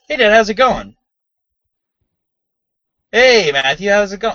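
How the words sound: There is a long gap before the reply.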